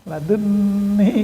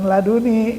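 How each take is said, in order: First: The n is doubled with a held nasal sound. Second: The n is single with no held nasal. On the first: The speaker calls it right. "Kalau dalam qiraat tajwid itu muncul gunnah. Laduni gitu" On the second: The speaker calls it wrong. "Jangan laduni gitu"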